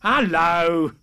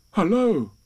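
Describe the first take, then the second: First: Loud, higher animal greeting; strange animal. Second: Lightly voiced bear, raised pitch; a hint of a higher, louder storybook bear; Pooh. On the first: Strange animal answering Pooh's greeting, loud and drawn-out. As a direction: call back loudly as an excitable creature. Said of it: "said the strange animal". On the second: Pooh greeting the stranger at his door, lightly voiced and higher. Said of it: "said Pooh". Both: A narrator's reading.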